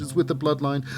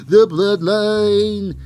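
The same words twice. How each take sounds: First: Said in the usual way. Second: The Bloodline drawn out slow and loud; announcer build. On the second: Shown as a demonstration. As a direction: announce The Bloodline like a ring intro.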